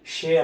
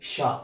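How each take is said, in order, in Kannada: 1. ಈ ಅಕ್ಷರ ದೀರ್ಘ 'e' ಸ್ವರದಲ್ಲಿ ಮುಗಿಯುತ್ತದೆ. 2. ಈ ಅಕ್ಷರ ಹ್ರಸ್ವ 'a' ಸ್ವರದಲ್ಲಿ ಮುಗಿಯುತ್ತದೆ. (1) "ಯಾವುದೇ ಸಂದರ್ಭಕ್ಕೂ ಇದನ್ನು ಶೇ ಅನ್ನಬೇಡಿ"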